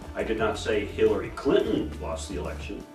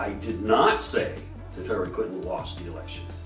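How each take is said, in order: First: The word 'Hillary' carries the main stress. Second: The word 'say' carries the main stress. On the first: Someone else lost it for her. "maybe Hillary didn't lose it" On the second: It was implied but not said outright. "I may have implied it"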